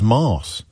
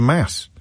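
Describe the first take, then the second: First: The word is said with a posh vowel. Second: The word is said with an ordinary vowel. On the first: This is how the speaker's posh school said it. "says mass instead of mass" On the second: This is how most people say it. "instead of mass"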